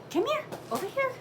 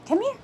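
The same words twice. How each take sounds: First: Much higher, coaxing pet voice; sing-song dog call. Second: Said in the usual way. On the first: Real, not acted. Owner coaxing her big dog over, in a high sing-song. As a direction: lilt it up high to lure the dog.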